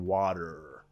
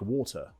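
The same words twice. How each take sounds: First: The final R sound is clearly pronounced. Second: The final R sound is dropped.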